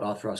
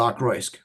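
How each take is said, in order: First: The second syllable starts with a th sound. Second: The second syllable starts with a k sound. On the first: This is the pronunciation heard from someone knowledgeable. The speaker calls it right. "Kurt actually call it Othrusk all the time. So I've just uh, assumed he was correct" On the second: This is the older personal pronunciation. The speaker calls it wrong. "I did used to call it Okroysk"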